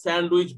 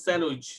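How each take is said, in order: First: স্যান্ডউইচ with the d clearly sounded, sand-wich; wrong pronunciation. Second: স্যান্ডউইচ said as sanwich with a silent d; correct pronunciation. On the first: Teacher shows students the wrong way to say sandwich, d pronounced. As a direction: say স্যান্ডউইচ spelling out the d as the mistake. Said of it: "এটা উচ্চারণ হবে না". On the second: Teacher gives students the right way to say sandwich, sanwich with silent d. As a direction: say স্যান্ডউইচ smoothly, dropping the d. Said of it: "আমরা কি বলবো". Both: Shown as a demonstration.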